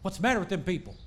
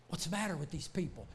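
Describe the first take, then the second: First: Put-on Southern Missouri accent. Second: Said in the usual way. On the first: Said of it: "not speaking Southern Missouri". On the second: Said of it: "they're speaking Greek".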